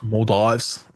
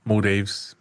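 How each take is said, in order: First: "Maldives" with the second syllable rhyming with "fives"; Maldives with long-i ending. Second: "Maldives" with the second syllable rhyming with "leaves"; Maldives with ee ending. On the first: Unsure speaker trying out the name, "Maldives" said mawl-DYVES. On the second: Unsure speaker offering another version, "Maldives" said mole-DEEVES. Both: Shown as a demonstration. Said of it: "whatever it is, I don't know".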